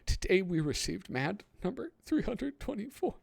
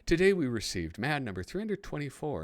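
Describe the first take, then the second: First: It is read in a tearful, crying voice. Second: It is read in a plain, normal voice.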